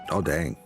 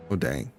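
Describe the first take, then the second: No difference in how they are said.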